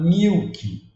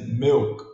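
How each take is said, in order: First: The vowel sounds like a long 'ee'. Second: The vowel sounds close to 'eh'. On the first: The speaker calls it wrong. "Muitos falam milk" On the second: The speaker calls it right. "pronunciado como e"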